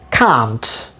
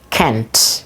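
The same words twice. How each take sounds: First: It is said in a British accent. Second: It is said in a North American accent. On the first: "So British pronunciation" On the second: "And North American pronunciation is"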